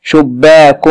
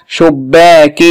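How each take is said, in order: First: شباك ending in a clear "-un"; damm tanween. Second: شباك ending in a clear "-in"; kasr tanween. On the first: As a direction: say شباك as "shubbaakun", with damm nunation. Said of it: "تنوين بالضم". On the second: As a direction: say شباك as "shubbaakin", with kasr nunation. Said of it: "تنوين بالكسر". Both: Shown as a demonstration.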